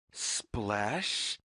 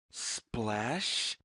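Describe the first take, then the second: No difference in how they are said.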